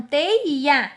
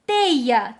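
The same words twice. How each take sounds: First: TEIA broken as "tei... a"; split into syllables. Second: Said in the usual way. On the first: Shown as a demonstration. Teacher showing it must be separated, split syllables. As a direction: detach the final a of teia. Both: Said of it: "deve ficar separada".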